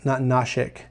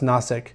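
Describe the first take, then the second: First: The middle consonant is an 'sh' sound. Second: The middle consonant is a plain 's' sound. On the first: The speaker calls it wrong. "not Nashik" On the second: The speaker calls it right. "from my understanding it's pronounced Nasik"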